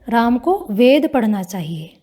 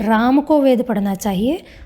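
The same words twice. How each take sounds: First: The stress is on the word वेद. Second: The stress is on the word राम.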